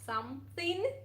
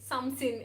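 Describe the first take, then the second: First: The word is said fully with every sound. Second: The word is clipped, sounding close to sin. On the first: "instead of" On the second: "I usually say something, something, like sin"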